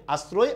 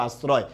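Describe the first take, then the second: First: "আশ্রয়" as "as-ro-e", rounded o; closed o. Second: "আশ্রয়" as "as-raw-e", open o; wide o after the s in "আশ্রয়". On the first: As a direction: tight o after the s in "আশ্রয়". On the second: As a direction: say "আশ্রয়" with o as in "law". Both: Shown as a demonstration. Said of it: "এটা দুটো উচ্চারণই correct".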